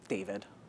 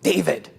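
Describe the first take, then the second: First: The name is said in a neutral tone. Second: The name is said in an insulting tone. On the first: It is just a name. "So my tone is" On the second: It is used as an insult. "Moderate insult"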